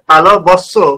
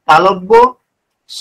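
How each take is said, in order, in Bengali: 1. নামটি একটি শব্দ হিসেবে একসাথে বলা হয়। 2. নামটি আলাদা দুই ভাগে বলা হয়। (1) "এইটা নয়"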